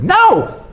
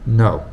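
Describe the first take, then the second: First: The word is said at a high pitch. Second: The word is said at a low pitch. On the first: The speaker has little authority. "So then that means that I, I don't I don't have so much authority" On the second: The speaker has a lot of authority. "If I have authority"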